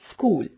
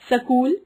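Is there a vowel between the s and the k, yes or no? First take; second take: no; yes. First: The s and k are said together. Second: A vowel is inserted between s and k. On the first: The speaker calls it right. "शुद्ध उच्चारण" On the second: The speaker calls it wrong. "अशुद्ध उच्चारण"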